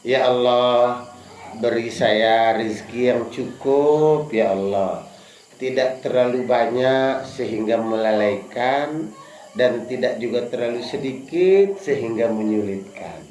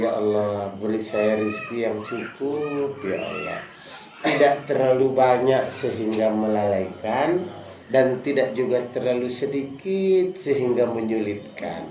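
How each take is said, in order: First: Low, slow and hushed, no shouting; soft humble prayer. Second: Prayer spoken within the heart, fading away; whispered prayer. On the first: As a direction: pray it gently, as if in your heart. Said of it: "Ikut dalam hati saja, nggak usah teriak-teriak". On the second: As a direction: lower and much softer, almost inward. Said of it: "Semua bilang di dalam hati". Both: Shown as a demonstration.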